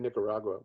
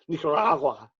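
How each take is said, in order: First: It is said with a plain English pronunciation. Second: It is said with a Spanish-style pronunciation. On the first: This is the ordinary way. "We don't say Nicaragua" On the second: This is the public radio way. "We say Nicaragua. That's how we say it in public radio"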